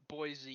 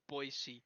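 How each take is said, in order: First: The name is said the way outsiders pronounce it. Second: The name is said the way locals pronounce it. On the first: The speaker is not from the place. The speaker calls it wrong. "if you're not from Idaho, you like to say Boise, but it's not Boise" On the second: The speaker is from the place. The speaker calls it right. "It's Boise"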